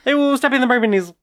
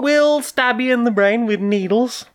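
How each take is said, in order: First: It is said quickly, rushed through. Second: It is said at a normal speed.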